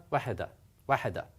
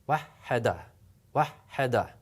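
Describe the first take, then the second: First: Wahada, wahada rattled off quickly with a single h; very fast. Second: Wahada with a held double h; doubled h. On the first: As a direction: rush through wahada, wahada. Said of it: "Very, very fast". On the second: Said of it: "I'm gonna double it". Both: Shown as a demonstration.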